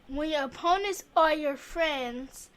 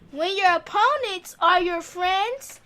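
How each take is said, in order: First: It is read quietly. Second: It is read loudly.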